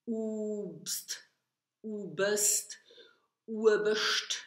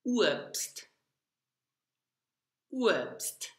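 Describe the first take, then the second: First: Obst said wrongly as ubst, ubest, Oberst; wrong student versions of Obst; common student mistakes. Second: Obst said as uobst, the uo glide, plain st; correct pronunciation. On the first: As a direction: imitate learners mispronouncing Obst. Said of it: "I hear many students say". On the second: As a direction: correct teacher model of Obst. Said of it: "Let's repeat". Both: Shown as a demonstration.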